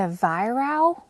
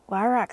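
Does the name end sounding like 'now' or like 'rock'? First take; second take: now; rock. First: The name ends with a 'now' sound. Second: The name ends with a 'rock' sound. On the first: "that like rhymes with buy now" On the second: "Y-Rock sounds so awesome"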